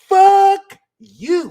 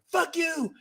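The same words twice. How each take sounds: First: It is said with real, deep feeling. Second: It is said abruptly, without real feeling.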